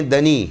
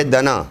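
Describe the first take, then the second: First: "دنی" said da-nee, ending in ee; wrong reading dani. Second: "دنا" said da-naa, ending in long aa; correct reading dana. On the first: Retold or imitated. Teacher quotes what reciters wrongly read, da-nee. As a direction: end "دنی" on a long ee. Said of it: "پڑھنے والے پڑھتے ہیں". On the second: Shown as a demonstration. Teacher corrects the reciters' word, da-naa. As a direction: end "دنا" on an open long aa. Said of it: "وہ ہے دنا".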